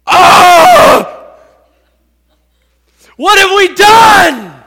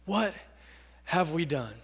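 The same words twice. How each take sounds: First: Very loud, high anguished wail; guilt-stricken cry. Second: Low, soft, halting regret; deep sorrow. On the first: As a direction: cry out in horror at your own guilt. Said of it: "Can you imagine the guilt". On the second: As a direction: let it sink out quietly after a pause. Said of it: "With deep sorrow". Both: Acted.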